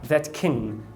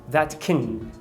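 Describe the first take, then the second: The two takes are said the same way.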